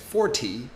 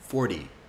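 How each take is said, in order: First: The middle consonant is a crisp T. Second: The middle consonant is a soft D. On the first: "that's technically correct" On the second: "I turn the T into a D"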